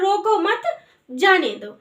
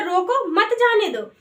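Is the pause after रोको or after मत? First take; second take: after मत; after रोको. First: There is a pause after मत. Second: There is a pause after रोको.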